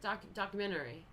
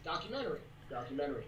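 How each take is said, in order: First: Documentary said dɑkjmɛntɛri, stressed on ment; her own pronunciation. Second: Documentary with dɑkjəmɛnəri, falling, lower; teaching pronunciation. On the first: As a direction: say "documentary" her odd way, stretched. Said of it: "I think I say it funny". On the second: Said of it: "we're teaching you how to say documentary". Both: Shown as a demonstration.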